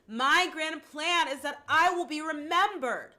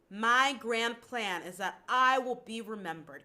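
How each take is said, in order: First: It is called out loudly, projected far away. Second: It is spoken at a normal conversational level. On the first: "like you're calling out to someone" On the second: "I'm going to start with speaking it"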